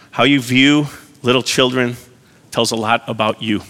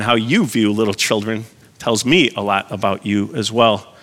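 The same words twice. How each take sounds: First: Said in the usual way. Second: "you" and "me" lifted above the rest; stress on you and me. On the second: Real, not acted. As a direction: punch "you" in "how you view", then "me". Restated with contrast on you, me.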